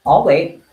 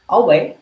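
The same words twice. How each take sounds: First: Loud, pointed teacher warning; a loud mock teacher waiting; teacher's I'll wait. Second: Loud, higher and pointed; a mock teacher's loud repeat; teacher's I'll wait again. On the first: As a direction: wait them out like a strict teacher. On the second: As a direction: stare them down with it. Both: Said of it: "I'm gonna do the teacher thing".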